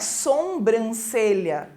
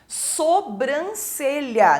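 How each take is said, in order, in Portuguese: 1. Ouve-se um som de m depois do o. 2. Não se ouve nenhum som de m depois do o.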